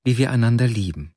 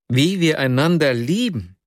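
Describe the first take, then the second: First: A lightly voiced young woman stating it simply, falling; happy, plain statement. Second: Exclaimed echo. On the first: Young woman tells her friend, a plain glad statement. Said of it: "„Ich will, dass er sieht". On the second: The narrator echoes Nastjenka in pained disbelief. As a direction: echo her words higher, in disbelief. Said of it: "rief ich aus". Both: A narrator's reading.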